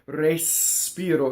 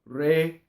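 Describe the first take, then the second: First: The S hisses at the end of the first syllable. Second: The S starts the second syllable, without hissing. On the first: The speaker calls it wrong. "that's ugly because ... you have the hissing on the first syllable" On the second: The speaker calls it right. "the S has to completely go on the second note"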